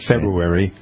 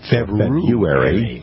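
First: The word is pronounced in a sloppy way. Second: The word is pronounced in a careful way. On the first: The speaker calls it wrong. "Not February" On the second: The speaker calls it right. "That is correct"

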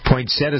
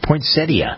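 First: The word ends in 'tuh', dropping the 'i' sound. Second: The word ends in 'tee-uh', keeping the 'i' sound. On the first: The speaker calls it wrong. "some people pronounce it" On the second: The speaker calls it right. "but it's poinsettia. That's the way the dictionary tells us"

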